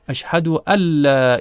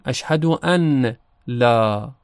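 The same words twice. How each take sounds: First: The n merges into a doubled l sound. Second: The n sound is pronounced before the l. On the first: "نون در لام ادغام میشه و لام مشدد تلفظ میشه" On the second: "اگر ادغام نکنیم"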